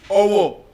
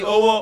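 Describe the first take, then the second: First: Its tones give the word naming a place. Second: Its tones give the word meaning hand. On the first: It names a town. "Owo is a place in Ekiti" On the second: It means hand. "Owo means hand"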